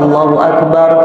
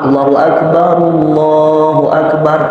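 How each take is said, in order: First: The first Akbar ends with a full stop. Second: The first Akbar runs on with a u vowel. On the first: "Kalau mau dipisah ... berhenti" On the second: "Kalau mau disambung, make domah"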